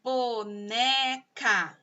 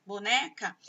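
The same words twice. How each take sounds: First: "Boneca" very slow, in three stretched syllables. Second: Said in the usual way. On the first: Shown as a demonstration. Teacher counting three sounds for pupils, "Boneca" syllable by syllable. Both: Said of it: "Boneca tem três sons".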